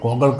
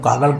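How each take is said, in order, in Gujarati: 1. પહેલો સ્વર 'o' અવાજમાં બદલાયો છે. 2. પહેલો સ્વર ખુલ્લો 'a' અવાજ છે. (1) "જરા વાંકું બોલીએ એટલે માણસનું ધ્યાન ખેંચાય" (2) "હું કાગળ કહું તો કોણ સાંભળે"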